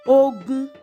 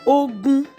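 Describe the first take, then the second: First: The tones are mid then mid. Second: The same.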